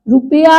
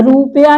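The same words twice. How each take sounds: First: रुपया said ru-piya, short ru; correct short vowel. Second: रुपया said rū-peya, long first vowel; wrong long vowel. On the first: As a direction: keep ru quick in रुपया. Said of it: "रुपया होता है". (रुपया में छोटा उ) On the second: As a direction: lengthen the rū in रुपया. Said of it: "रुपया नहीं होता". (रुपया का लंबे ऊ वाला गलत उच्चारण) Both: Shown as a demonstration.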